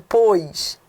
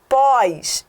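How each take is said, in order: First: The prefix is unstressed, with a reduced vowel. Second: The prefix is stressed, with an open vowel. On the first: "e não" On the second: "como eu pronunciei agora"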